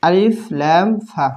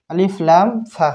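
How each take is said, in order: First: আলিফ লাম ফা spelled out slowly letter by letter; slow spelling. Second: Said in the usual way. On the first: Shown as a demonstration. Teacher slowly spelling the letter name for students. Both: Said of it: "আলিফ বানান হচ্ছে".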